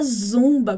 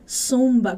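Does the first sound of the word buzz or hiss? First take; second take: buzz; hiss. First: It begins with a buzzing z sound. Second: It begins with a hissing s sound. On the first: The speaker calls it wrong. "com zumbidinho de abelha" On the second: The speaker calls it right. "com som de S"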